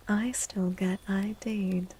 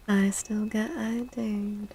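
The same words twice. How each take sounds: The two takes are said the same way.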